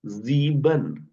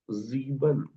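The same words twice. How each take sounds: First: "जीबन" very slow, a buzzing Z at the start. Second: "जीबन" repeated softer, with the same Z start; quieter repeat. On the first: Teacher shows how the word starts. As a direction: drag out "जीबन", Z not S. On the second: Teacher repeats the word for the student. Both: Shown as a demonstration. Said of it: "इसे हम क्या बोल रहे हैं".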